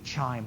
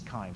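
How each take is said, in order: First: The word begins with a 'ch' sound. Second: The word begins with a 'k' sound. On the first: The speaker calls it wrong. "It looks like it should be chime" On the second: The speaker calls it right. "the correct, correct pronunciation is chyme"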